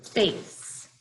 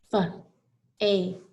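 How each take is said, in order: First: Said in the usual way. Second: "F-A-C-E" as three separate sounds, fuh, ay, sss; sounded out. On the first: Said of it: "Let's look at the word". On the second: Shown as a demonstration. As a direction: break "F-A-C-E" into sounds with pauses between. Teacher sounds out the word face.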